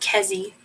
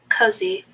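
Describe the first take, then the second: First: The name is said with a Japanese-style vowel. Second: The name is said with a Chinese-style vowel. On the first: The speaker calls it wrong. "how you'd pronounce it in Japanese" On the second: The speaker calls it right. "I'm getting used to the E"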